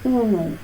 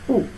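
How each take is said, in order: First: "oo" drawn out as a long vowel. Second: "oo" as a brief vowel, as in put; short oo. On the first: Teacher shows what short U is not, long drawn-out oo. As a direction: stretch "oo" out, the wrong vowel for put. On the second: Teacher corrects to the short U, short oo. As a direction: keep "oo" short, not drawn out. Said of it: "Short U". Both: Shown as a demonstration.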